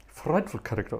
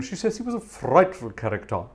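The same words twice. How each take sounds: First: Put-on softer and lower, a light take on an old English gentleman; a light hint of the playwright saying frightful; Noel Coward voice. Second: Said in the usual way. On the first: Organist imitating the playwright for viewers, lightly voiced. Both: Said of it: "Spoke like that all the time".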